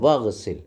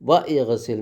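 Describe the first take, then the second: First: Wa runs straight into gsil with no i. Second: An i vowel is sounded between wa and gsil. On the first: The speaker calls it right. "ഹംസത്തുൽ വസലിൻ്റെ കസർ ഉച്ചരിക്കൂല" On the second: The speaker calls it wrong. "എന്ന് പറയൂല"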